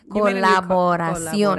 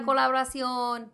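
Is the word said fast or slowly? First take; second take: slowly; fast. First: The word is said slowly. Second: The word is said quickly. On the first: The speaker calls it right. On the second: The speaker calls it wrong.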